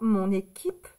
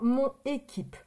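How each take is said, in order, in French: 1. Le n passe doucement dans la voyelle qui suit. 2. Le n est coupé avant la voyelle qui suit. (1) "ça c'est une voyelle... on va plutôt dire mon équipe" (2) "On ne va pas dire mon équipe. Ce n'est pas joli"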